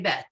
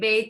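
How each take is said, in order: First: The vowel is a short 'eh' sound. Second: The vowel is a long 'ay' sound. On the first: This is the current way of naming the letter. "so we say bet" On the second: This is the older way of naming the letter. "this is the old pronunciation. They'd say bait"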